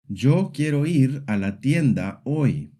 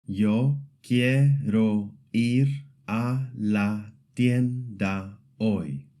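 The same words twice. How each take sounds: First: "Yo quiero ir a la tienda hoy" in connected, natural flow; syllable-timed Spanish. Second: "Yo quiero ir a la tienda hoy" at half speed, evenly spaced; syllable-by-syllable demo. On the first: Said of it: "Each syllable is given about the same length". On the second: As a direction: sound out "Yo quiero ir a la tienda hoy" slowly, each syllable steady and level. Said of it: "Every syllable is clear and steady". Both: Shown as a demonstration.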